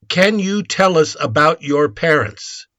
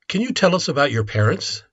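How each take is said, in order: First: It is said slowly and carefully. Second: It is said at normal speed.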